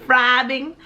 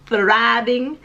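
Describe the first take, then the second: First: "thriving" begun with an f sound; "thriving" said as "friving". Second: "thriving" begun with a clear th; careful th at the start of "thriving". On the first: Mispronounces, then corrects the word. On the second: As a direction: put the tongue-tip th back in "thriving". Repeats the word with th. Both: Real, not acted.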